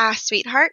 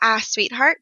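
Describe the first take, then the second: First: The opening vowel is an 'ah', Irish style. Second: The opening vowel is an 'ah', Irish style.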